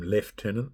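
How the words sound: It is said the New Zealand way, lef-tenant.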